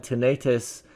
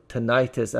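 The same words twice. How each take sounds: First: "tinnitus" with a long stressed middle vowel, like "tin-AY-tis"; tinnitus, first pronunciation. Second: "tinnitus" with a stressed middle "eye", like "tin-EYE-tis"; alternative tinnitus pronunciation. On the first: Lecturer naming a side effect, tinnitus said tin-AY-tis. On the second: Lecturer offering others' variant, tinnitus said tin-EYE-tis. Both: Shown as a demonstration. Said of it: "as some people would say".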